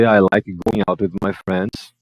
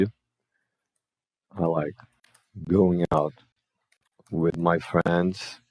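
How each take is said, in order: First: Model sentence. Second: I like, going out, with my friends, each chunk said very slowly with pauses between; chunked slow demo. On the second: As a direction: break "I like going out with my friends" into slow separate chunks, a bit softer. (devagar, em blocos separados, mais baixo) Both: Shown as a demonstration. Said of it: "Ó, então a gente vem aqui".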